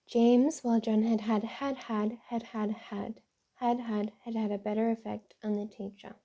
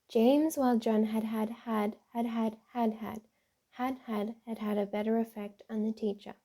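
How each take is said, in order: First: Pauses and emphasis group the words favoring John. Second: Pauses and emphasis group the words favoring James. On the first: The second student's answer was the better one. "placing the same punctuation in a different arrangement" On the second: The first student's answer was the better one. "The sentence is easier to understand with added punctuation and emphasis"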